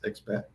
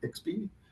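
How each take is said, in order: First: It is said with an Italian pronunciation. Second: It is said with an English pronunciation.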